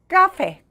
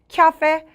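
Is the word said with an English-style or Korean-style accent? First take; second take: Korean-style; English-style. First: It is said with plain Korean-style vowels. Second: It is said with a 'kya' sound, English-style. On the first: The speaker calls it wrong. "카페라 그러잖아요" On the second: The speaker calls it right. "이거를 약간 키아페"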